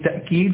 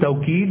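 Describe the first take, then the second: First: The word has a glottal stop after the first t. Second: The word has a w sound after the first t. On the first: "والتأكيد بالهمزة" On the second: "التوكيد بالواو"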